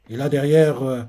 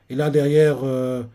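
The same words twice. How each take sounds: The two takes are said the same way.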